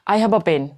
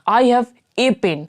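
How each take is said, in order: First: The article is a short, weak 'uh' sound. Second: The article is a full, stressed 'ay' sound. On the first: The speaker calls it right. "ऐसे कहना चाहिए" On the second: The speaker calls it wrong. "तो हम लोग क्या कहते हैं"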